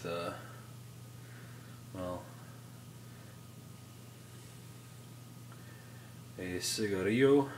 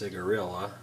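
First: The word has its standard pronunciation. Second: The word has a Tennessee regional pronunciation. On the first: The speaker calls it right. "I actually heard it pronounced properly, and I cannot go back" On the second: The speaker calls it wrong. "if you're from Tennessee, is pronounced cigarilla"

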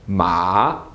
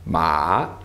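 No difference in how they are said.

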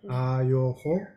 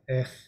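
First: The word is said in its full, spelled-out form. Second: The word is said in its short, reduced form. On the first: This is how the word is written. "we write Ayoho" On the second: This is how the word is spoken. "but we say Ech"

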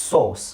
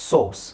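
No difference in how they are said.

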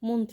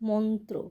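First: The first vowel is a closer 'o' sound. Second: The first vowel is an open 'aw' sound. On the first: The speaker calls it wrong. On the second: The speaker calls it right.

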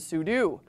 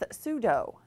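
First: The word ends with a 'doo' sound, like do. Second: The word ends with a 'doh' sound, like judo. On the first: The speaker calls it right. "rather than sudo" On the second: The speaker calls it wrong. "similar to the martial art of judo"

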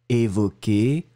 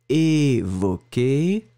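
First: The word is said at a shorter length. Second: The word is said at a longer length.

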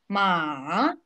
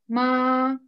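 First: The pitch dips down, then rises. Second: The pitch stays high and level. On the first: "Третий тон на американской горке. Вниз и вверх" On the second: "Первое слово в первом тоне"

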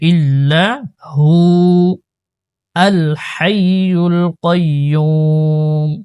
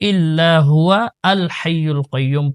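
First: There is a stop before al-hayyul. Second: It runs on without a stop before al-hayyul. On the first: The speaker calls it right. "আর যদি আপনি এখানে ওয়াকফ করেন" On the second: The speaker calls it wrong. "ওয়াকফ করে না, মিলায়ে পড়ে"

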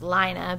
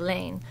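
First: The name is said with two syllables. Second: The name is said with one syllable. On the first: This is how it is said in Scandinavia. "in Scandinavia it's pronounced Lina" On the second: This is how it is said in France. "in France it'd be Lane"

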